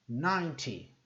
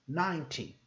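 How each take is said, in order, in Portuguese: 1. O t é nítido e claramente pronunciado. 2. O t é nítido e claramente pronunciado.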